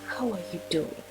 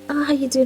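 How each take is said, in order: First: It sounds knowing and deeply concerned. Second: It sounds light, casual and offhand.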